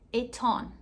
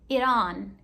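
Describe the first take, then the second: First: The t is pronounced as a clear t. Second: The t sounds like a quick r. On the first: "E no inglês britânico" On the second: "Esse T vira um R no inglês americano"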